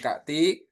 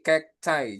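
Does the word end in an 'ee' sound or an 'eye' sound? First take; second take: ee; eye. First: The word ends in an 'ee' sound. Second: The word ends in an 'eye' sound. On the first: The speaker calls it wrong. "Bukan kakti" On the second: The speaker calls it right. "tapi cacti jadinya"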